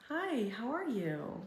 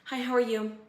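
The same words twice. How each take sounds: First: It sounds warm and sincerely interested. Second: It sounds dutiful and uninterested. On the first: The question is asked out of real care. The speaker calls it right. "And then there's the" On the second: The question is asked out of obligation. The speaker calls it wrong. "This is the first one"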